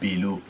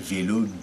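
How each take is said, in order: First: The word begins with a B sound. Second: The word begins with a V sound. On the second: "c'est pas vélo"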